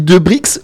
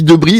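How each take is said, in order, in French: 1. Le x final est prononcé. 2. Le x final est muet. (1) "je dis De Brix" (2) "ça se prononce pas ?"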